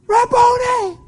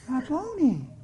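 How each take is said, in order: First: It is cried out with excitement. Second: It is said in a calm, controlled way.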